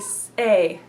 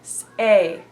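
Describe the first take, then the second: The two takes are said the same way.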